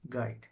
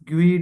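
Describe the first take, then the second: First: It is said 'gide', with the u silent. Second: It is said 'gweed', with the u sounded. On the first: The speaker calls it right. "આને બોલશો શું બોલાશે?" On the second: The speaker calls it wrong. "એવું નહીં બોલાય"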